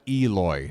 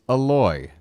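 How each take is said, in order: First: The stress is on the first syllable. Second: The stress is on the second syllable. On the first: The speaker calls it wrong. "I'm putting too much emphasis on the E" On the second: The speaker calls it right. "You stress the the second syllable"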